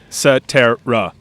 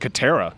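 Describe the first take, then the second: First: The name begins with an S sound. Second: The name begins with a K sound. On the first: The speaker calls it right. "that that's like vintage like S sound" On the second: The speaker calls it wrong. "It's not with a K"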